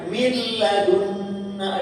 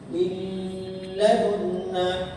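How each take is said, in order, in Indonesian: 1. n-nya hilang sepenuhnya ke dalam bunyi l. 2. n meninggalkan dengung sengau sebelum l. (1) "Nggak ada gunanya nun sama sekali" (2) "kedengaran nggak suara eh nunnya? Tapi gunanya kedengaran?"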